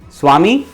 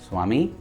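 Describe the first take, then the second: First: The name is called much more loudly. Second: The name is called at normal volume.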